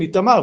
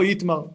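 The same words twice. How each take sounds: First: It is said with two full 'a' vowels, Itamar. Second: It is said clipped without the middle vowel, Itmar. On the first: "נקראת באמת בשני קמצים" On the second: "ולא"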